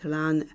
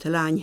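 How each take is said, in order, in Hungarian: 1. A szó sima n hangra végződik. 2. A szó palatális ny hangra végződik. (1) "az eny hangok is depalatalizálódnak" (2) "lány helyett"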